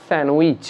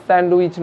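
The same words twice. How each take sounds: First: "স্যান্ডউইচ" with the d dropped; silent d. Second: "স্যান্ডউইচ" with the d sounded; "স্যান্ডউইচ" said with an audible d; wrong pronunciation. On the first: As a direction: say "স্যান্ডউইচ" as "san-wich". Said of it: "ডি silent তাই". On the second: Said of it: "এটা স্যান্ডউইচ নয়". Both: Shown as a demonstration.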